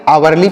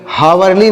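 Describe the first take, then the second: First: "आवरली" starting on the vowel, H silent. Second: "हावरली" with the H sounded at the start; wrong H pronunciation. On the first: Teacher shows pupils the reading, "आवरली" with silent H. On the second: Teacher shows pupils what not to read, "हावरली" with H voiced. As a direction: say "हावरली" with an audible opening H. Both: Shown as a demonstration. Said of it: "यहाँ पर एच silent है".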